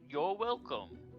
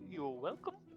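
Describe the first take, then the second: First: The voice falls at the end like a statement. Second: The voice rises at the end like a question. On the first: It sounds like a sincere reply to thanks. The speaker calls it right. "that's why I said it the second time" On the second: It sounds unsure, like asking. The speaker calls it wrong. "you probably shouldn't make him say it as a question"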